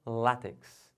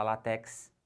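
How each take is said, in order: First: "látex" slowly as LÁ-tex; stress on LÁ. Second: "látex" as la-TÉX; wrong stress on TEX. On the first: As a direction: lean on the first syllable of "látex". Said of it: "O certo é". ("látex" com a tônica no LÁ) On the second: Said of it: "não pode falar". ("látex" errado, tônica no TÉX) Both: Shown as a demonstration.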